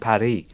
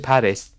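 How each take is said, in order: First: The final S sound is silent. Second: The final S sound is pronounced. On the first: It is how a French speaker would be expected to say it. "Surely she would have gone" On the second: It is how the French woman actually said it. "she said it like"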